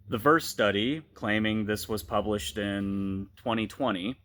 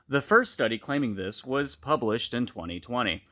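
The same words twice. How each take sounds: First: The phrase breaks right after the word study. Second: The phrase breaks right after the word this. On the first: The study is what claimed the publication. The speaker calls it wrong. "how's that read?" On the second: The study making the claim was published then. The speaker calls it right. "sorry, inflection's key"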